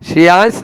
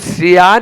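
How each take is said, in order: First: The name ends with an s sound. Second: The name ends with an n sound. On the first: The speaker calls it wrong. "श्रेयांश नहीं है" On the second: The speaker calls it right. "स नहीं है ... last में आधा न है"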